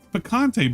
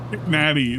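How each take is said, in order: First: It is said as pee-kahn-tay. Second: It is said as pick-natty. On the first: The speaker calls it right. "It's picante" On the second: The speaker calls it wrong. "He doesn't know how to say the word picante"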